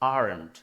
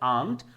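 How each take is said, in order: First: It is said with an American accent. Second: It is said with a British accent. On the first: "আমেরিকানরা বলছে" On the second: "British অ্যাকসেন্টে বলতে চান ওরা বলছে"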